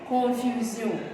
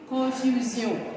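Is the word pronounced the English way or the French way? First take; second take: French; French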